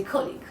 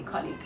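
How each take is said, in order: First: Colleague with short rounded o; British o sound. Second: Colleague with open first vowel; American ah sound. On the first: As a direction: say colleague as KOL-eeg. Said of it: "I don't say colleague". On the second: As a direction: say colleague as KAH-leeg. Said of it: "I always say colleague". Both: Shown as a demonstration.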